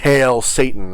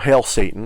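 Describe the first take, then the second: First: It is said dramatically, with theatrical flair. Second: It is said plainly, without drama.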